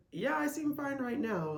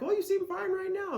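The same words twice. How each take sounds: First: Raised, dry sarcastic yes; wry agreement. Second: High mock voice of a doubter; mocking skeptic. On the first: Retold or imitated. Answering the doubter with dry sarcastic agreement. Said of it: "it's like". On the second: Mimicking a doubter who thinks she seems fine, high-pitched. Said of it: "so if you're like".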